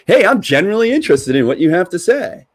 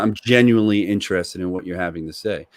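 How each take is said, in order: First: It sounds rehearsed and put on. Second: It sounds sincere and even in tone. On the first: The interest is only a sales line. The speaker calls it wrong. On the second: The speaker truly cares about the answer. The speaker calls it right.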